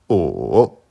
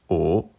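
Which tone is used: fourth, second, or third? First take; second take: third; second. First: The pitch dips low, then rises. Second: The pitch rises from mid to high. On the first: "Troisième ton" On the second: "deuxième ton"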